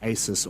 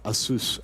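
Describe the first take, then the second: First: The name has the speaker's Australian pronunciation. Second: The name has the pronunciation used overseas. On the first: "I am a bogan from Australia" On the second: "as I know some overseas call it"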